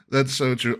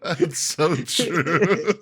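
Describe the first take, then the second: First: Said in the usual way. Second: Drawn out through laughter; laughing. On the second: Real, not acted. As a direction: laugh as you say it slowly. Laughing at friend's story.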